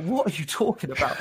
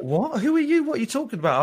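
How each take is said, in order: First: Said in the usual way. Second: Imitating the senior director's shock at a stranger; startled what. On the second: Senior director asked about ASMR in a lift, startled. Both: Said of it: "And he's like".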